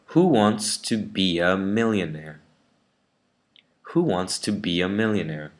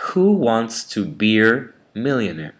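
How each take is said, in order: First: "be a" as r-less "bia"; British schwa. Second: "be a" turned into "beer" with a strong r; American bossy R. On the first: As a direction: glide "be a" into a schwa with no r. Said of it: "Let me try the British version". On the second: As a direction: say "Who wants to beer millionaire", r fully sounded. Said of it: "with an American way of saying it". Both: Shown as a demonstration.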